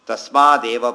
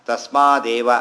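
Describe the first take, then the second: No difference in how they are said.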